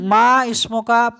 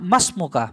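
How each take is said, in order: First: The i-vowel after 'ma' is pronounced separately. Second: The i-vowel is dropped, joining into 'masmuka'. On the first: The speaker calls it wrong. "এটা কিন্তু মা ইসমকা পড়লে ভুল হয়ে যায়।" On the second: The speaker calls it right. "আলিফ উচ্চারণ যদি কেটে দেন তাহলে উচ্চারণটা হবে মাসমোকা"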